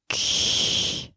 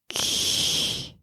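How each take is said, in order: First: The k sound is relaxed and drawn out. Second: The same.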